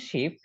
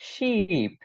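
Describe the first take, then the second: First: "শিপ" with a short i, as in ship; brief-vowel "শিপ". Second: "শিপ" with a long stretched ee, as in sheep; long falling "শিপ", sheee-p; drawn-out vowel. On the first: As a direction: say "শিপ" quickly, no stretch. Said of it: "এটার উচ্চারণ শিপ". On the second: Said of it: "টান হবে". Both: Shown as a demonstration.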